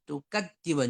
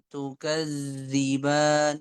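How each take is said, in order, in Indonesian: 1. Konsonan tengahnya ditekan dan terhenti keras. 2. Konsonan tengahnya mengalir dengan udara yang terus-menerus. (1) "Jangan ditekan, jangan tukajiban" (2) "Sifatnya mengalir suaranya"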